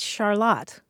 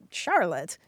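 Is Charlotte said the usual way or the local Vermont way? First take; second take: local Vermont; usual. First: It sounds unlike the common woman's name. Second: It sounds like the common woman's name. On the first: The speaker calls it right. "nope, it's Charlotte" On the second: The speaker calls it wrong. "because it looks like the woman's name"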